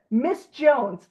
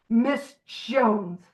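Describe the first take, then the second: First: Said in the usual way. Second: Disgusted. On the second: Shown as a demonstration. Naming the resented woman to the group, with distaste. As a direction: spit out "Miss Jones" like a bad taste.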